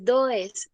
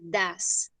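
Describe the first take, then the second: First: The vowel sounds like an o. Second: The vowel sounds like an a. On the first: The speaker calls it wrong. "No se dice does" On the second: The speaker calls it right. "se dice das"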